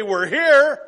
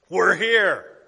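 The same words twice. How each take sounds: First: Excited shout. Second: Firm call to go. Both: Retold or imitated. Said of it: "this is how he says it".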